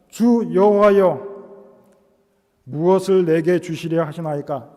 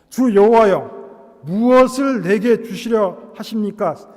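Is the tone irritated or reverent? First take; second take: reverent; irritated. First: It is read in a solemn, reverent tone. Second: It is said in an annoyed, irritated tone. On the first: The speaker calls it wrong. "이렇게 거룩하게 읽으면 안 되고" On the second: The speaker calls it right. "짜증을 내면서 탕 이렇게 치는 상황입니다"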